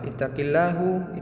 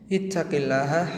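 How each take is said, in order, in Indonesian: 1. Kata ini berakhir dengan vokal 'u'. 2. Kata ini berakhir dengan vokal 'a'.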